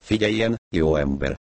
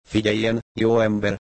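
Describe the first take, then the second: First: Put-on drunk woman. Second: A hint of a tipsy wife, raised on jó; lightly voiced drunk woman calling him good man. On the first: Drunk wife on the phone. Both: A narrator's reading.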